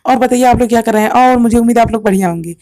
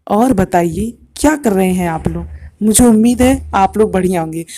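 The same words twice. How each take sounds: First: Quick, bright-paced demo take; fast and high. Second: Slower, lower demo take. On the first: Teacher demoing fast speech to students, fast. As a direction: rattle it off fast to show high frequency. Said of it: "मैं अब दो तरीके से बोलूँगा". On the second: Teacher demoing slow speech to students, slower. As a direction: ease it out slowly to show low pitch. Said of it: "दूसरे में ... धीमे धीमे बोल रहा था". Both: Shown as a demonstration.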